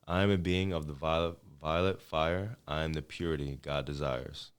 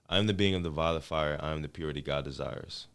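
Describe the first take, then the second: First: It is said slowly. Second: It is said at a normal speed.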